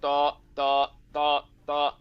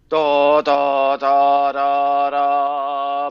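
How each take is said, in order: First: The sound stops briefly between each syllable. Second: The syllables flow together with no gaps. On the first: The speaker calls it wrong. "That sound underneath stops" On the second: The speaker calls it right. "mine would sound like"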